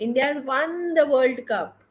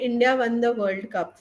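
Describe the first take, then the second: First: It is said excitedly with lively pitch variation. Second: It is said flatly with little pitch change. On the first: The speaker calls it right. "We are excited" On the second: The speaker calls it wrong. "if we say India won the World Cup flat, it doesn't sound good"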